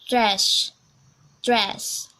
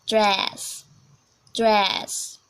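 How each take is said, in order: Both takes have the same delivery.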